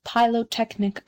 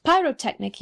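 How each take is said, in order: First: "pyrotechnic" said with L in place of R, "pylotechnic"; mispronounced pyrotechnic. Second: "pyrotechnic" with a clear R, "pyro-technic", pitched higher; corrected pronunciation. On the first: Court gazette's praise misquoted by the Rocket, "pyrotechnic" mispronounced as "pylotechnic". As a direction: say "pyrotechnic" wrongly as "pylo-technic". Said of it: "pyrotechnic, you mean". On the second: Bengal Light corrects the Rocket, "pyrotechnic" with its proper R. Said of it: "you mean". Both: A narrator's reading.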